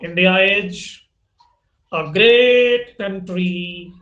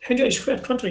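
First: It is spoken with an Indian English accent. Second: It is spoken with a British accent. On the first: "भारतीय अंग्रेजी" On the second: "उसमें British accent होना चाहिए"

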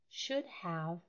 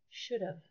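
First: The two words are said separately and precisely. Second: The two words are linked into one.

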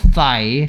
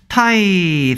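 First: The word begins with a th sound. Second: The word begins with a plain t sound. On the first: The speaker calls it right. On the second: The speaker calls it wrong.

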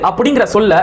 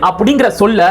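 Both takes have the same delivery.

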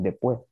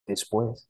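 First: It is said in a Dominican Spanish accent. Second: It is said in a standard Spanish accent. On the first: "but he's saying" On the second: "When he said"

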